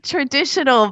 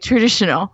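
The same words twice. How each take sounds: First: Every syllable of the word is clearly pronounced. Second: The word is slurred and not fully enunciated. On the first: The speaker calls it right. "I meant to say traditional" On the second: The speaker calls it wrong. "I don't quite enunciate it properly. And I say traditional"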